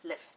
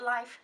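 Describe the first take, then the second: First: "life." said short with a short i, like liff; "life." said clipped as liff, the right title; corrected reading. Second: "life" said as the English word, long i and f, said as the wrong take; "life" rhymes with wife, a touch higher and louder; the mistaken "life" before the correction; wrong reading. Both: Shown as a demonstration. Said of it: "Not life".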